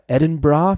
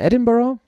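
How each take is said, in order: First: The name is pronounced the local Scottish way. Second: The name is pronounced the usual German way.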